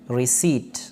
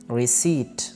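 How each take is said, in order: The two takes are said the same way.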